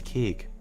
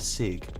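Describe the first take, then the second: First: The word begins with a k sound. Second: The word begins with an s sound. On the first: The speaker calls it right. "but no, it's cig" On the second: The speaker calls it wrong. "I said it wrong earlier"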